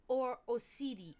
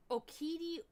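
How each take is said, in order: First: Osidi with an s sound, oh-SEE-dee; soft C pronunciation. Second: Okidi with a hard k, oh-KEE-dee; hard K pronunciation. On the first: The alternative Latin reading, C as S. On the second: Latin word tried with a hard K. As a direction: say Okidi with a K sound. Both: Shown as a demonstration. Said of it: "was pronounced as a K".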